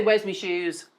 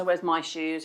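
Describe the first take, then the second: First: "me" said in place of "my", as in Liverpool; Scouse slip on "me". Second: Said in the usual way. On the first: Shown as a demonstration. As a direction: say "Where's me shoes?" with a Scouser's "me". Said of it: "It still slips in". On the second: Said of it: "I don't say".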